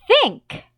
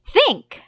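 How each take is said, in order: The two takes are said the same way.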